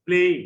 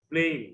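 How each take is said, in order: First: ব্লেম punched out loud and short; teacher modelling ব্লেম for the class to repeat; ব্লেম said loud and firm; model pronunciation. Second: Said in the usual way. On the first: Shown as a demonstration. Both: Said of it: "try to pronounce the words correctly".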